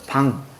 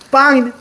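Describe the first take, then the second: First: The first consonant is plain and lax. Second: The first consonant is tense. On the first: The speaker calls it wrong. "이상하지 않아요?" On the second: The speaker calls it right. "관용적으로 사용된 거에는 된소리가 있어요"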